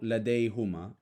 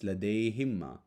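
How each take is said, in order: First: The vowel after the h is an 'oo' sound. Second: The vowel after the h is an 'ee' sound. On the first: The speaker calls it wrong. "it's not" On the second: The speaker calls it right.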